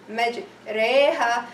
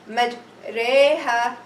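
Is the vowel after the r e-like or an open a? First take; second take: e-like; e-like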